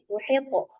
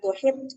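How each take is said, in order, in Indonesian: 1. Bunyi t di akhir memantul dengan gema yang jelas. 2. Bunyi t di akhir hanya mengeluarkan sedikit hembusan udara. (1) "qalqalahin besar lagi" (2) "jangan cuman eh, angin aja yang keluar"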